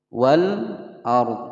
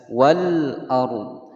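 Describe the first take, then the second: Both takes have the same delivery.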